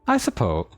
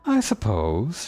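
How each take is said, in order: First: It is said in a plain, ordinary voice. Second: It is said in a light, floaty voice.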